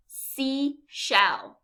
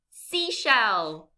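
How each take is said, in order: First: SEASHELL as sea, pause, shell; two separate beats in SEASHELL; syllable by syllable. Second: Said in the usual way. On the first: Shown as a demonstration. Teacher quizzes learners, SEASHELL syllable by syllable. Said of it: "say this word syllable by syllable". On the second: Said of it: "What is it?".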